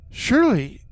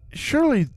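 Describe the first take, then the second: No difference in how they are said.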